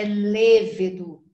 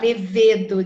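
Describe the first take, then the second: First: Levedo as LÊ-vedo, first syllable drawn out; stress on first syllable. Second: Levedo as le-VE-do, weight on VE, loud; stress on middle syllable. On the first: Teacher corrects the common error, levedo stressed on LE. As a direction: hit LE in levedo and let the rest fall. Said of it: "não, é levedo". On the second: Teacher quotes what people say, levedo stressed on VE. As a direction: push the VE of levedo as in the common error. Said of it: "o pessoal fala levedo". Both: Shown as a demonstration.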